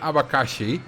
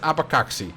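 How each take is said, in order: First: The x is said as 'sh'. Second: The x is not said as 'sh'. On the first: The speaker calls it right. "it's pronounced as she" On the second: The speaker calls it wrong. "I don't care. It's abacaxi"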